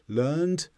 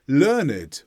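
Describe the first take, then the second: First: The ending is said without an extra vowel. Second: The ending is said with an extra vowel. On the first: The past of the verb. "where we don't pronounce the E would be for the verb form" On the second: Someone who knows a lot. "when it's an adjective"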